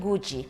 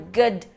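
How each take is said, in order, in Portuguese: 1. O d final soa como um som de dj. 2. O d final é um som de d simples. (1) "e não good" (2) "é um good morning"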